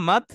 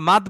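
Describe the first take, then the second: First: মাদ with a long drawn-out vowel; stretched maad. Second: মাদ said short, vowel not stretched; the wrong short মাদ, no drawn vowel; clipped mad. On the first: Teacher shows students the correct drawn-out মাদ. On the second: Teacher shows students the wrong short মাদ. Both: Shown as a demonstration. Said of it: "আমরা মাদ বলি না".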